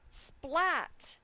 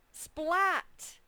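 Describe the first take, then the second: First: The voice sounds lively and animated. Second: The same.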